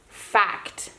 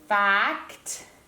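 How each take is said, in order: First: The word is said quickly at normal speed. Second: The word is stretched slowly with a clear C.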